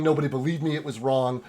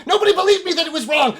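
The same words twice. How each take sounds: First: Said in the usual way. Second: High, loud, rushed shriek; frantic mad ranting; insane elf. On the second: Acted. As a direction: race through it in a crazed shout. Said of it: "fucking insane elf".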